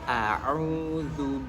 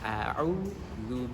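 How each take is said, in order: First: It begins with a throaty ain sound. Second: It begins with a plain glottal stop. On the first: The speaker calls it right. "Yang benar adalah" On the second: The speaker calls it wrong. "Ketika kita membacanya dengan au itu salah"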